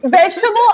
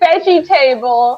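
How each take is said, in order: First: The word is said as one run-together word. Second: The word is split like 'veggie' plus 'table'. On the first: The speaker calls it right. "It's like veggie ta- vegetable" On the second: The speaker calls it wrong. "I used to say veggie table"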